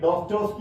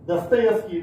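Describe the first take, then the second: First: The name is said as Dostoski, without -yev-. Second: The name is said as Dastayevski, with -yev-. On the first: This is how some people pronounce it. The speaker calls it wrong. "ഡോസ്റ്റോസ്കി എന്നൊക്കെ ചിലർ ഉച്ചരിക്കുന്ന" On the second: This is the actual pronunciation. The speaker calls it right. "ഉച്ചാരണം അങ്ങനെയാണെന്ന് തിരിച്ചറിഞ്ഞു"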